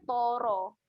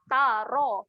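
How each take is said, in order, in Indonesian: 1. Bunyi t itu tebal dan berat. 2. Bunyi t itu tipis dan ringan. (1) "Bukan toro" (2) "Bunyi dia adalah tara"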